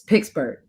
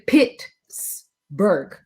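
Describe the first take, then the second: First: The first syllable sounds like 'pix'. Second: The first syllable sounds like 'pits'. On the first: The speaker calls it right. "you say it like P I X" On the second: The speaker calls it wrong. "please do not say Pittsburgh. That's not how you say it"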